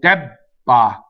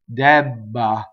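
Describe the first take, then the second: First: The voicing stops briefly at the double B. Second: The voicing continues through the double B. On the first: The speaker calls it wrong. "We actually stop phonation" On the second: The speaker calls it right. "Italians don't stop phonation"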